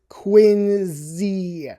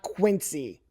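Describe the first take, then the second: First: The c is said like a z. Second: The c is said like an s. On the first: The speaker calls it right. "The C is pronounced like a Z" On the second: The speaker calls it wrong. "It's not Quincy"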